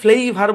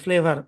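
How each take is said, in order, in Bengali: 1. প্রথম স্বরধ্বনিটি একটি দীর্ঘ 'ay' ধ্বনি। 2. প্রথম স্বরধ্বনিটি একটি ছোট 'eh' ধ্বনি। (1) "আমরা এটাকে ফ্লেইভার বলি না" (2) "ফ্লেভার বলি"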